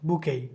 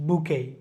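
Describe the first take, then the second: No difference in how they are said.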